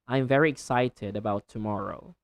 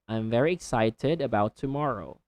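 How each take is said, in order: First: The t in excited is a clear t sound. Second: The t in excited is a clear t sound.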